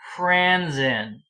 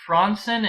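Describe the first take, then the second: First: It is pronounced the anglicized English way. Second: It is pronounced the original Swedish way. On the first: The speaker calls it right. "You would pronounce it like an English word" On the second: The speaker calls it wrong. "Would you pronounce it Fransen in English, Paul? No"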